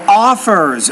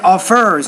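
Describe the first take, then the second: First: The stress is on the first syllable. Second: The stress is on the second syllable. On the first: The speaker calls it right. "No, offers" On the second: The speaker calls it wrong. "You said offers"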